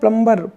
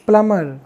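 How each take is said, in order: First: A b sound is pronounced after the m. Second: No b sound is pronounced after the m. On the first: The speaker calls it wrong. "Indian लोग maximum बोलते हैं क्या? इसको प्लम्बर बोलते हैं।" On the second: The speaker calls it right. "इसको प्लम्बर ना बोल के प्लमर बोला जाता है।"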